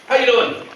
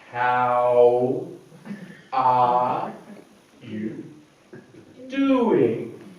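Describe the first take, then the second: First: It is said quickly. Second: It is said slowly.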